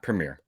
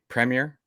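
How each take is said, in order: First: The first syllable has a different vowel sound. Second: The first syllable is said as 'pre'. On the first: The speaker calls it wrong. "not Premier" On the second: The speaker calls it right. "Premier, pre, right? Premier"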